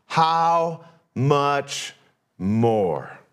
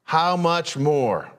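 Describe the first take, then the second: First: Drawn-out HOW with falling MORE; how much more. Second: Slow, weighty "How much more?"; "How much" lifted, then "more?" dropped. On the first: Preacher presenting the key phrase, slow and falling. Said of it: "Here it is". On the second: Preacher repeating the phrase, slow and weighty. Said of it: "That's the phrase". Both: Shown as a demonstration.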